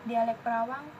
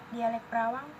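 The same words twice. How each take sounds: No difference in how they are said.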